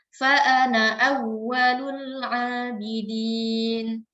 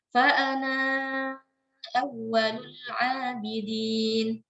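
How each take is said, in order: First: The vowel in 'ana' is short. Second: The vowel in 'ana' is long. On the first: The speaker calls it right. "dibaca pendek" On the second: The speaker calls it wrong. "tidak dibaca mad atau tidak dibaca panjang"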